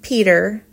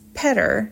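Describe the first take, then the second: First: The first vowel is long, as in beet. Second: The first vowel is short, as in bet. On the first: The speaker calls it wrong. "people incorrectly pronounce it Peter" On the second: The speaker calls it right. "it's Petter, like better or letter"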